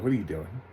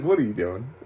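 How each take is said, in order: First: Said in the usual way. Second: Baffled mock question, starting on a laugh; amused disbelief. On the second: Laughing, repeats mocking question.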